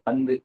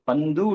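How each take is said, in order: First: The final u vowel is short and reduced. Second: The final u vowel is full and long. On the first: The speaker calls it right. "அவ்வளவுதான்" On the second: The speaker calls it wrong. "இல்ல"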